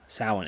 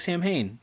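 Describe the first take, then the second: First: It is said roughly as 'sow-in'. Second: It is said as spelled, 'sam-hain'. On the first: The speaker calls it right. "It's gonna trick you this whole time" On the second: The speaker calls it wrong. "It looks like Sam Hain"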